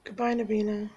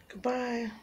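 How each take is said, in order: First: Said in the usual way. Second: Soft whispered goodbye to the cat; gentle whispered farewell to the cat. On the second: Real, not acted. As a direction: breathe the goodbye softly.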